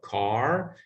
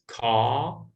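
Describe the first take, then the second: First: It is said in an American accent. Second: It is said in a British accent. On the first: "instead of car" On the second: "the pronunciation of the word R in British, which is car"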